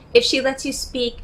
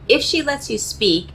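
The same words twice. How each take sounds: First: "if" said higher, leaned on as the key word; stress on IF. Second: Said in the usual way. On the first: Shown as a demonstration. Coach stressing to men that "if" she lets you speak, stress on "if". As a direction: lean hard on "if", then let the rest fall. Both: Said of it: "and I stress the word if".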